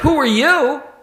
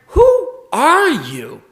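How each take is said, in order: First: It sounds like a neutral request for identity. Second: It sounds dismayed and searching, not a plain inquiry. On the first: The asker does not know the other person's identity. The speaker calls it wrong. "Not "I have no idea who you are,"" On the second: The asker wonders what has become of the other person. The speaker calls it right. "But I can't help but hear it as"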